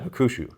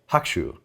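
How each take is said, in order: First: The middle u is clearly pronounced. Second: The middle u is nearly silent. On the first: The speaker calls it wrong. "than Hakushu" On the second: The speaker calls it right. "it should sound more like Hakushu"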